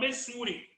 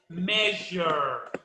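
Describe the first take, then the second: First: The ending sounds like the word sure. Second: The ending sounds like zher, as in jar. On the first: The speaker calls it wrong. "eu já vi um aluno falar mesure" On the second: The speaker calls it right. "é pronúncia como jar"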